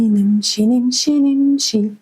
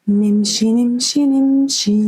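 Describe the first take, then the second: Both takes have the same delivery.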